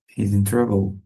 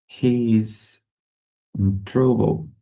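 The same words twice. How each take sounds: First: Said in the usual way. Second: Drawn out, with a pause before "in trouble"; slow, word-group by word-group for learners; slow model sentence. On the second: Shown as a demonstration. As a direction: hold "He is", pause, then finish. Teacher models slowly, then at usual pace.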